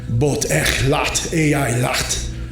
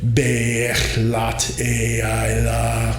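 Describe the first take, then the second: First: Guttural sounds with hard consonant syllable endings. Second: Some syllables end hard, others end open. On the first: It calls on an aggressive aspect. "a very aggressive aspect" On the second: It gives a balanced mantra. "mix the two for a balanced sounding mantra"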